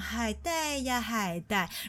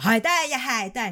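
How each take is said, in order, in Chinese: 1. 这句是用上海口音温柔地说的。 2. 这句是用台湾口音说的。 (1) "来自上海的女生妈妈，就是她连说海带呀海带都是非常的温柔的" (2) "像台湾的呢就是非常的"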